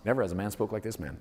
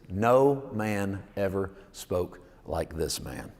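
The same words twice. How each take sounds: First: Fast, softer throwaway quote; brisk offhand quote; quick recap. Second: Every word drawn out slowly; slow, savoured reading. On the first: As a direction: rattle it off as a reminder. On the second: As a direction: let the line sink in, word by word. Savoured favourite quote, read aloud. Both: Shown as a demonstration.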